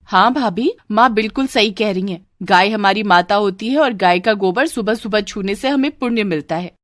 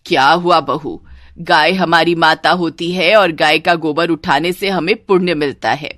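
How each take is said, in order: First: Lightly voiced sister-in-law; agreeing sister-in-law. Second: Lower, firm mother-in-law voice; preachy mother-in-law. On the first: Sister-in-law echoing her mother to the bride, agreeing. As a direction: back up mother, in a middle register. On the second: Acted. Mother-in-law telling the bride of merit, preachy. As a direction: lecture the bride in a low register.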